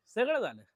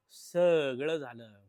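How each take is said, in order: First: High, loud swoop falling away; high dramatic repeat. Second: Very slow, loud and stretched out; drawn-out dramatic. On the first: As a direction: pitch it up then drop sharply. Same words, quicker high repeat. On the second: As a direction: drag each word out for effect. Mock-dramatic summing up, repeated. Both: Real, not acted.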